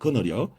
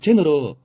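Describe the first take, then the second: First: The word begins with a hard g sound. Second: The word begins with a j sound. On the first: This is the old way of saying it. "고어 발음은 그너려" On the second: This is the modern way of saying it. "현대 발음으로 제너러"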